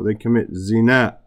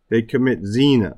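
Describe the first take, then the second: First: Zina carries Arabic-style emphasis placement. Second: Zina carries English-style emphasis placement. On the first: The speaker calls it right. "No, ... We have to pronounce the words rightly" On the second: The speaker calls it wrong. "But we say, oh"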